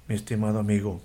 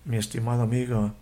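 The two takes are said the same way.

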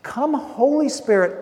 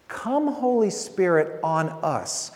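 First: Louder, higher, urgent call to the Spirit; fervent louder plea. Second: Slow prayerful call. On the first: Preacher modelling the communion prayer, louder and higher. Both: Shown as a demonstration. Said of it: "what we're really saying is to come".

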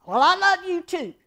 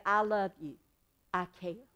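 First: Higher, louder, sarcastic love you too; grudging love you. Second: Sincere love you. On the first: Answering someone's I love you with insincere sarcasm. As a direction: toss it off like you don't mean it. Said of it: "you don't feel love". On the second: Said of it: "Or you can say". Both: Shown as a demonstration.

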